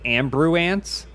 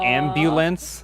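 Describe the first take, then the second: First: The middle consonant is an r sound. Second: The middle consonant is an l sound. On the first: The speaker calls it wrong. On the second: The speaker calls it right.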